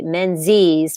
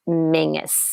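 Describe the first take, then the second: First: It is said with a z sound, like 'Menzies'. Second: It is said with a g sound, like 'Mingus'. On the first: "they pronounced his name the English way" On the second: "rather than the Scottish way"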